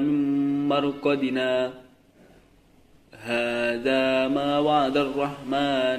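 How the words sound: There is a brief pause after marqadina. The speaker calls it right. "berhenti sejenak tetapi tidak mengambil nafas"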